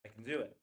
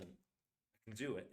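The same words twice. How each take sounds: First: "do" stressed, "can" reduced to "kn". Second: Slow, "can" weak as "kn", "do" stressed. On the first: Teacher showing weak "can" and stressed "do". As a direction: hit "do", swallow "can" in "I can do it". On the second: Teacher repeating slowly, stressing "do" over "can". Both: Shown as a demonstration. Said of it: "Do matters, can doesn't".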